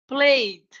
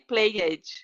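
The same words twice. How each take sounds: First: The ending is a plain D sound, one syllable. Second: The ending is an extra syllable with a vowel. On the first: The speaker calls it right. "imagine the letter E doesn't exist" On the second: The speaker calls it wrong. "I don't say"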